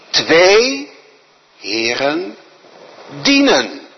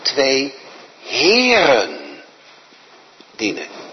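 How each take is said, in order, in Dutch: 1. De klemtoon ligt op twee en dienen. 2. De klemtoon ligt op heren. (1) "Met de klemtoon op twee en dienen" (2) "Met de nadruk op heren"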